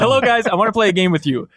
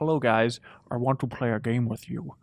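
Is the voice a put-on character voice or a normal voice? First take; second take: normal voice; character voice. First: It is said in his ordinary speaking voice. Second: It is said in a put-on villain voice. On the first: It simply reads out the message. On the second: It imitates a horror movie villain.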